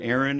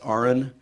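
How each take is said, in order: First: It sounds like the common name Aaron. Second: It sounds like the letters R and N. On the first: The speaker calls it wrong. "my name is not Aaron" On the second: The speaker calls it right. "pronounced like registered nurse. R N"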